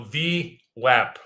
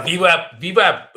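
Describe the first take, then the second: First: "V wap" said slowly, V and W kept apart; slow down and separate "V" from "wap"; deliberate, drawn-out retry of "V wap"; careful correction. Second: Tripping over the V-W in "V wap", louder; stumbling loudly on "V wap"; Russian slip. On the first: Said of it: "word that always trips me up". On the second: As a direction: blurt "V wap" with V and W tangled by a Russian tongue. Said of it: "There goes my Russian". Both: Real, not acted.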